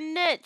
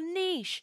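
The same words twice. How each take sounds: First: It is said with an American pronunciation. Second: It is said with a non-American, British pronunciation.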